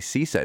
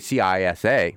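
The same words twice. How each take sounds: First: It is pronounced as one single word. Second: It is spelled out letter by letter. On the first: The speaker calls it right. "We say CISA. It became a word like scuba" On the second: The speaker calls it wrong. "we don't say CISA"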